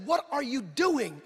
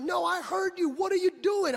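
First: Slow, drawn-out mock challenge; slow retold scolding question; disbelieving challenge. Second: High-pitched imitation of an exasperated wife; mock indignant wife, high and insistent; indignant challenge. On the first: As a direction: stretch each word, imitating a disapproving wife. Wife's first challenge, retold. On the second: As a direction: press the question, pitched way up. Wife repeats challenge, escalating.

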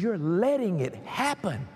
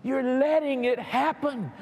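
First: Said in the usual way. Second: Higher, insistent "You're letting it happen"; emphatic repeat. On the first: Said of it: "He says". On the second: Retold or imitated. God telling the believer who is responsible, insistent on "letting". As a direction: press hard on "letting", pitched up.

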